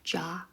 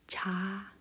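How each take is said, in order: First: The consonant is a rounded English-style J sound. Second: The consonant is a flatter Korean-style J sound. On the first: The speaker calls it wrong. "In English, you would read this word as ja" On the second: The speaker calls it right. "but in Korean, it's cha"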